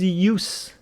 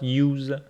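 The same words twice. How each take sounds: First: It is said with the noun pronunciation. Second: It is said with the verb pronunciation. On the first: The speaker calls it right. "it is use ... because it's a noun" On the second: The speaker calls it wrong. "and not use"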